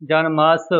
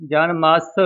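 Both takes have the same delivery.

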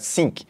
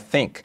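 First: The word begins with an s sound. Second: The word begins with a th sound. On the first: The speaker calls it wrong. "como se fosse um S, né, ao invés de um TH" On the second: The speaker calls it right. "a pronúncia melhor, né, seria think"

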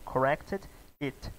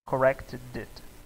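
First: The two words are said separately. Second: The D sound links into the next word. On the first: The speaker calls it wrong. "você quer falar separado" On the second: The speaker calls it right. "a gente não separa o som"

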